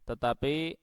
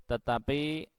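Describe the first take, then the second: No difference in how they are said.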